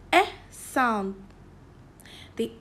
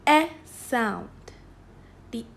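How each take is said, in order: Both takes have the same delivery.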